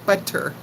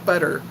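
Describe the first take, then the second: First: The middle consonant is a crisp T sound. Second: The middle consonant is a soft D sound. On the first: "We don't enunciate that clearly" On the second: "We just round it out to with D's"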